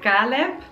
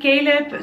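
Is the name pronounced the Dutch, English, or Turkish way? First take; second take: Dutch; English. First: The name is pronounced the Dutch way. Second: The name is pronounced the usual English way. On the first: The speaker calls it wrong. "in the Netherlands, they will say Caleb" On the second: The speaker calls it right. "Caleb sounds very sweet"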